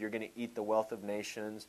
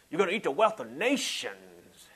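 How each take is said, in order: First: It is said in a normal, calm voice. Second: It is said in a loud, preachy voice.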